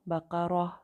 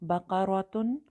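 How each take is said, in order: First: The word ends cut short with a silent h. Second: The word ends with the full ending -tun.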